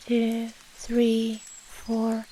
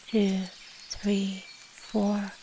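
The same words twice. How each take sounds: The two takes are said the same way.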